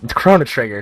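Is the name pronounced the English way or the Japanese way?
English. The name is pronounced with English sounds.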